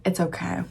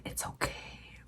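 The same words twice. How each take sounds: First: Said in the usual way. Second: Very quiet, growled reassurance; growly professor voice. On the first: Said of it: "He's like". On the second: Retold or imitated. Professor reassuring a student about a late lab, growly. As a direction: imitate the professor with a low-volume growl. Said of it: "there was some growl in that, in that voice".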